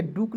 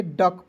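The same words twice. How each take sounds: First: डुक said with a u sound, the wrong way; डुक as a beginner would misread it; wrong reading. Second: डक said with a short a sound, the right way; correct reading. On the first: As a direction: mistaken डुक. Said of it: "डुक नहीं पढ़ेंगे". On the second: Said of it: "डक पढ़ेंगे". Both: Shown as a demonstration.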